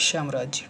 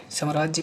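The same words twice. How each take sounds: First: साम्राज्य with a long first aa; corrected vowel. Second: साम्राज्य with a short first a; common mispronunciation. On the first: Teacher giving the correct word, साम्राज्य with long aa. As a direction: open saam wide and long in साम्राज्य. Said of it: "लेकिन होता क्या है". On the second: Teacher showing common usage, साम्राज्य with short a. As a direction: clip the first syllable of साम्राज्य to sam. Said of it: "तो बोलते हैं". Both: Shown as a demonstration.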